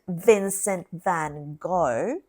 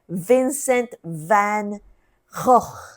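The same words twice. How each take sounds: First: The name is said with English-style sounds. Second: The name is said with throaty Dutch g sounds. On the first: The speaker calls it wrong. "it wasn't" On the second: The speaker calls it right.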